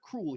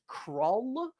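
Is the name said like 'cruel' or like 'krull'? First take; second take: cruel; krull. First: The name sounds like the word cruel. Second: The name sounds like krull, one short syllable. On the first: The speaker calls it wrong. "I've been pronouncing it wrong this whole time. It's not Cruel" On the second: The speaker calls it right. "His name is Krull, but it's spelled like Cruel"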